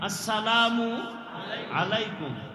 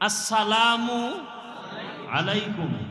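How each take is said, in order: The two takes are said the same way.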